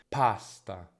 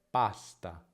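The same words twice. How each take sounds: First: The p is said with a puff of air. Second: The p is said without a puff of air. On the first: The speaker calls it wrong. "troppa aspirazione" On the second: The speaker calls it right. "Meno movimento, quindi va bene"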